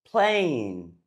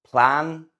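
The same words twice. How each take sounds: First: Plane with long ay glide. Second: Plan with short open A. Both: Shown as a demonstration. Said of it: "you say them differently".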